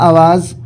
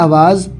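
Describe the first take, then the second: Both takes have the same delivery.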